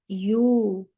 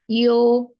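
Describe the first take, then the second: First: The vowel is a pure, lip-rounded oo sound. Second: The vowel is an unrounded, o-like sound. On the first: The speaker calls it right. "it's not possible if you will not make your lips round" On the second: The speaker calls it wrong. "pronouncing vowel in between fatha and dhamma"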